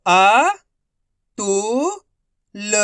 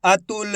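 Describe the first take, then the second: First: अतुल very slow, each syllable alone. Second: Said in the usual way. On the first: Shown as a demonstration. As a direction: sound out अतुल in long, parted syllables. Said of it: "direct मात्रा का उच्चारण करके पढ़ेंगे". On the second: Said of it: "तो मिलके बन जाएगा".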